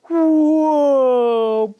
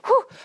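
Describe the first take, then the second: First: It is said in slow motion. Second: It is said at normal speed.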